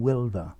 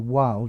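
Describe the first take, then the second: First: The name is said with a German pronunciation. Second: The name is said with an English pronunciation. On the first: "it's probably a German name" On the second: "I would probably say Wild in English"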